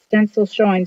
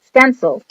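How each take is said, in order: First: Said in the usual way. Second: "Stencil" said louder as a firm correction; corrected word. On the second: Real, not acted. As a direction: correct yourself with a clear "Stencil". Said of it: "gosh, I got transfers".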